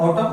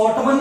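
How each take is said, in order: First: "ऑटम" with no final n; correct, silent n. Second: "ऑटमन" with the n pronounced; wrong way, n sounded. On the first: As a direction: model "ऑटम" ending on m. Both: Shown as a demonstration. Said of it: "ऑटमन नहीं बोलते हैं".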